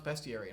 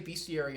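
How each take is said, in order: First: The first syllable sounds like 'best'. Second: The first syllable sounds like 'beast'. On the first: It is the way others insist on. "everybody always corrects me and says, no, it's bestiary" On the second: It is the speaker's own habitual way. "I always say bestiary ... why? It's about beasts"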